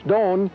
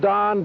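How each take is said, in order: First: It is said with a Spanish pronunciation. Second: It is said with an English pronunciation.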